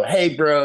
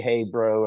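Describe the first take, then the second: First: Higher and louder, breezy American bro; casual bro greeting. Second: Said in the usual way. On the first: Retold or imitated. Trainee spy copying American slang, casual bro greeting. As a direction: toss it off like a laid-back American buddy. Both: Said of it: "you know exactly when to say".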